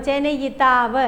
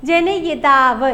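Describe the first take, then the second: First: Said in the usual way. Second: Very slow, syllable by syllable; slow careful spelling-out. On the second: Shown as a demonstration. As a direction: draw the word out for dictation. (പതുക്കെ ഉച്ചരിക്കുന്നു) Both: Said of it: "പല പരീക്ഷകൾക്ക് ചോദിച്ചിട്ടുണ്ട്".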